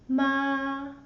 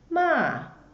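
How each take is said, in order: First: The pitch stays high and level. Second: The pitch falls sharply from high to low. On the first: "The first one, a flat sound" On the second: "The fourth tone, the sound goes down"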